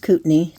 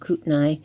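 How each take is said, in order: First: The name is said the local way. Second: The name is said a different, non-local way. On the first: The speaker calls it right. "That's how we pronounce it" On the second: The speaker calls it wrong. "not Kootenai"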